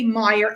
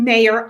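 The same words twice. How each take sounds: First: "Meyer", first syllable like "my"; name as "Meyer". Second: "mayor", first syllable like "may"; name as "mayor". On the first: Host showing how she says guest's surname, "Meyer" with EYE. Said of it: "I always say Meyer". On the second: Host showing the other way to say guest's surname, "mayor" with AY. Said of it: "instead of saying mayor". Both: Shown as a demonstration.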